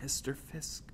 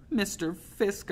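First: Soft, hesitant whisper; hushed, timid call. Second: High, slow, small plea; small drawn-out pleading voice; begging. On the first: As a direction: whisper to get his attention. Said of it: "I whispered". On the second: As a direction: beg him slowly. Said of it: "I begged, my voice as small". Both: A narrator's reading.

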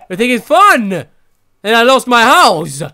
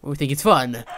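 First: Higher and louder, fed up; yelling that it isn't funny; loud indignant. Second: Said in the usual way. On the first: Real, not acted. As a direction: shout the question at them. Repeats, louder.

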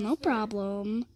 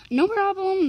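First: "No problem" low, soft and drawn out; trailing "no problem". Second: "No problem" pitched high, then falling; breezy "no problem". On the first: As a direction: stretch "No problem" low and quiet. Repeating reply, last take. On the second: Repeating reply, first take. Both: Real, not acted.

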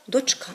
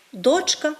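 First: Дочка with the beat on the final КА; stress on last syllable. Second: Дочка with the beat on ДОЧ; stress on first syllable. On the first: Teacher showing how people say it differently, stress on дочКА. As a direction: push the stress to the end: дочКА. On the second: Teacher showing how people say it differently, stress on ДОЧка. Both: Shown as a demonstration. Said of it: "чуємо різне наголошування цих слів".

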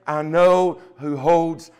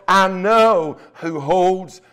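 Both takes have the same delivery.

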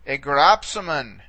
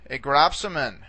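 First: Gropsamen drawn out slowly, stress on grop; teacher modelling gropsamen slowly; slow model pronunciation. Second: Gropsamen repeated at normal speed, stress on grop; teacher repeating gropsamen at normal pace. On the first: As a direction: sound out gropsamen slowly for students. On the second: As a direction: say gropsamen once more naturally. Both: Shown as a demonstration. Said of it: "All right".

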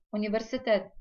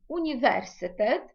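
First: Said in the usual way. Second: "університет" stressed on VER; exceptional Polish stress. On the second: Shown as a demonstration. Teacher contrasting Polish with familiar stress, stress on VER. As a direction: punch VER in "університет", not the last syllable. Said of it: "не згідно правил розставляються".

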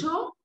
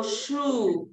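First: "shoe" with a short, loose oo; "shoe" with the lax, less closed U; less closed vowel. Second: "shoe" with a long, tight oo; "shoe" with the vowel held and tightly rounded; closed U. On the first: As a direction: say "shoe" wrongly, vowel as in "should". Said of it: "que no es tan cerrada". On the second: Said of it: "dónde cierro más". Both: Shown as a demonstration.

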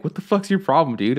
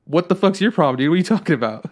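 First: Raised-pitch mock angry challenge; mad dad, retold. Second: Loud, higher-pitched comeback; indignant retort, retold. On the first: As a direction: imitate a mad dad confronting his son. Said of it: "But he was really mad". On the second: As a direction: act out throwing the challenge straight back. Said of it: "I was just like".

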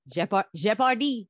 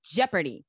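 First: Jeopardy said the French way, zhe-par-DEE; Jeopardy in a French accent, zhe-par-dee. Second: Jeopardy again in French, zhe-puh-dee; French-accented Jeopardy, zhe-puh-dee. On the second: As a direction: repeat the roommate's French Jeopardy, zh sound up front. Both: Retold or imitated. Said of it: "how my roommate says it with a French accent".

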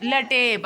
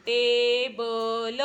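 First: लटेब echoed back with a falling, doubting tune; repeating the wrong reading. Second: टेबल stretched slowly, each syllable clear; correct word, drawn out. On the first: Retold or imitated. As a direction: echo the child's mistake लटेब. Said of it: "आता लटेब असतं का". (लटेब हे चुकीचे वाचन नकली सुरात) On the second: Shown as a demonstration. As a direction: model टेबल slowly for the child. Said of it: "लिही बरं टेबल". (टेबल हळू, स्पष्ट उच्चार)

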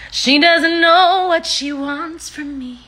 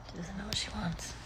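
First: Loud, high, stretched-out complaint; playful slow, raised-pitch announcement; drawn-out high wail. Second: Barely audible whisper; hushed, breath-only aside. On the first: Repeats it loudly, drawn out. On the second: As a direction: whisper it under your breath. Aside about the dog. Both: Real, not acted.

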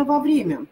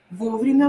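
First: Во время stressed on «вре»; во время with second syllable stressed. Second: Вовремя stressed on «во»; Вовремя, opening syllable stressed. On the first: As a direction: reduce «во» to «ва», hit Е in во время. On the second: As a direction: hit the first syllable of Вовремя with a full О. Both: Shown as a demonstration. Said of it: "О или Е".

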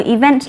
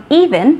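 First: Event stressed on "vent"; stress on second syllable. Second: Even stressed on the opening "e"; stress on first syllable. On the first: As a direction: punch the end of event. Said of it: "Trọng âm của từ event lại rơi vào vent". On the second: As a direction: punch the start of even. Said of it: "Còn even thì trọng âm rơi vào y". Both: Shown as a demonstration.

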